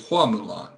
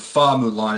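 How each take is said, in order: First: The name begins with an H sound. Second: The name begins with an F sound. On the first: The speaker calls it right. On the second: The speaker calls it wrong.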